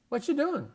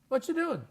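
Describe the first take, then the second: First: The first words blend together into 'whatcha'. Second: The first words blend together into 'whatcha'.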